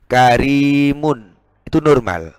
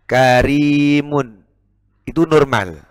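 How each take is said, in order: Both takes have the same delivery.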